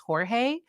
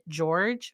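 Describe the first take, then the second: First: The name is said with Spanish sounds. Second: The name is said with English sounds. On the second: "he pronounced it George"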